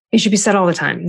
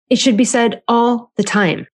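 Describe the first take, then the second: First: Said in the usual way. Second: Slow, stressed on be; emphatic repeat. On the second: Shown as a demonstration. Telling parents to say it more, slow and stressed. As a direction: press each word, slowly.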